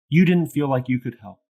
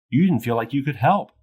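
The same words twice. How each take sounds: First: The pitch stays level or falls at the end. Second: The pitch rises at the end. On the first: It reflects the listener's feeling of powerlessness. The speaker calls it right. "This is likely to be received as a reflection of someone's feelings of powerlessness" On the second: It asks a question and implies a judgment. The speaker calls it wrong. "If I elevate my tone at the end of that statement"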